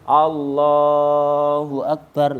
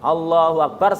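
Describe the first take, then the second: First: The phrase is drawn out and lengthened. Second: The phrase is said briefly and finished quickly.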